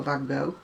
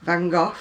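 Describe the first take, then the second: First: "Van Gogh" as van GO, silent ending; alternative American Van Gogh. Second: "Van Gogh" as van GOFF, f at the end; British Van Gogh. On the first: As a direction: end "Van Gogh" on an open oh, GO. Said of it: "whichever you want to do". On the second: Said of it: "is what I would pronounce it as". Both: Shown as a demonstration.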